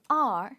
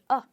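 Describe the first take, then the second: First: The word is a full vowel with r. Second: The word is a short reduced uh sound. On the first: The speaker calls it wrong. "it's not R" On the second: The speaker calls it right. "a very short sound, uh"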